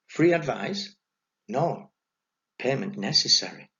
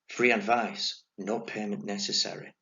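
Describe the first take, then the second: First: It is read as a question, then an emphatic no. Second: It is read straight through as one plain statement. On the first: Payment is required for the advice. "once the punctuation's added, everything's altered" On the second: The advice costs nothing. "without any punctuation, he might have read it like this"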